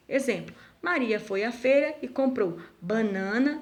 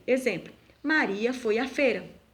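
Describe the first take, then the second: First: Maria foi à feira rising on banana to keep going; rising tune. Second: Maria foi à feira with a falling, finished tune. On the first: Teacher reads Maria foi à feira with a rising, unfinished tune. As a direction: leave banana hanging for the list. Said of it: "A vírgula é utilizado para representar uma pausa". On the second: Teacher reads Maria foi à feira with a final falling tune. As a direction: close the sentence firmly on feira. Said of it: "então eu uso o ponto final". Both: Shown as a demonstration.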